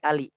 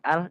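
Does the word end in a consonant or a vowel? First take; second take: vowel; consonant. First: The word ends with an added short i vowel. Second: The word ends on a bare l sound. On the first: "jadi ali" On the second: "Yang tadinya al"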